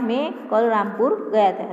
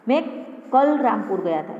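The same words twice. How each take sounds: First: The stress is on Rampur. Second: The stress is on कल.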